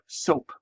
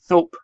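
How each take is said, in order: First: The word begins with an S sound. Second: The word begins with a TH sound. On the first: "instead of soap" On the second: "they might say thope"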